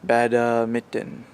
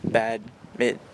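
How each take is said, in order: First: It is said with a Japanese-style pronunciation. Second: It is said with a standard English pronunciation. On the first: The speaker calls it wrong. "they say it like badminton" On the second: The speaker calls it right. "no, it's badminton"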